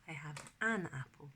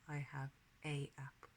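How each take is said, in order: First: An n sound links the article to apple. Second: A bare vowel article runs straight into apple. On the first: The speaker calls it right. "normally you put an N after the A" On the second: The speaker calls it wrong. "we wouldn't say"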